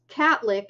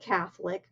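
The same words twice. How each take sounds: First: The th sound and a vowel are dropped. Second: The th sound and every vowel are pronounced. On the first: The speaker calls it wrong. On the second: The speaker calls it right.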